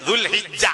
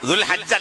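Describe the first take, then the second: First: The vowel after 'Dhul H' is 'i'. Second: The vowel after 'Dhul H' is 'a'. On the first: The speaker calls it right. "ശരിയായ അറബി ദുൽഹിജ്ജ" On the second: The speaker calls it wrong. "ദുൽഹജ്ജ് അല്ല, ദുൽഹജ്ജ് എന്ന് പേരില്ല"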